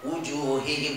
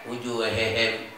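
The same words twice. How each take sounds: First: The vowel is pronounced plain and straight. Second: The vowel is tilted toward an e sound. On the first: The speaker calls it right. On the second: The speaker calls it wrong.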